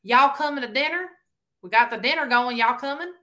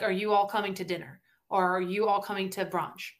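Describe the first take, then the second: First: Higher, louder Carolina "Y'all" call; Carolina accent. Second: Careful Northern US pronunciation, "you" and "all" kept apart. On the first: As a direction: call the family to dinner in a Carolina twang. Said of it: "that is honestly how my grandparents speak". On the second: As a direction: say "you all" as two full words, Northern style. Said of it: "if we're from the North, they say you all". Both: Acted.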